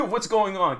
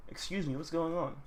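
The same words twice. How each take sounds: First: Louder, higher imitation of a bystander; mock alarm. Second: Said in the usual way. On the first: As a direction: blurt it in mock panic after a laugh. Repeats the bystander's question, amused.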